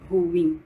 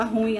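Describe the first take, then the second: First: "ruim" in two syllables, stress on the i, "ru-IM"; correct ruim. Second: "ruim" said as one syllable, stress on the u, like "rúim"; colloquial ruim. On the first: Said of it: "o correto é". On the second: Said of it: "A gente fala". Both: Shown as a demonstration.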